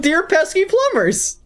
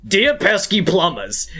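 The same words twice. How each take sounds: First: High-pitched mock Bowser line; Bowser impression. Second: Slow, hammy villain Bowser voice; a hint of Bowser taunting; Bowser impression. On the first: Proving his voices differ, high hammed-up Bowser. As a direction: squeak it out like a cartoon villain. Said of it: "One starts with". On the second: Showing his Mario and Bowser voices sound alike, mock Bowser. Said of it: "my voice for Mario and Bowser".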